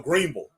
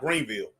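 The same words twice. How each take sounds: First: It is said in the local southern pronunciation. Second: It is said in the standard, outsider pronunciation. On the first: This is how the speaker's family always said it. The speaker calls it right. "it's always been Greenville" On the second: This is how people from elsewhere say it. The speaker calls it wrong.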